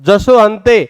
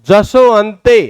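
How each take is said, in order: The two takes are said the same way.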